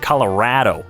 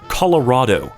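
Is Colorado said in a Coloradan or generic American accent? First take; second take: Coloradan; generic American. First: It is said in a local Coloradan accent. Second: It is said in a plain general American accent. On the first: This is how the speaker says it now. "that freaking Coloradan accent really gets me" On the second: This is how the speaker used to say it. "I don't say Colorado anymore"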